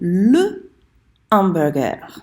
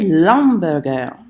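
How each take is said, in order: First: The article is said fully before the noun. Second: The article's vowel is dropped before the noun. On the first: The speaker calls it right. "You have to say le hamburger" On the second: The speaker calls it wrong. "we don't say l'hamburger"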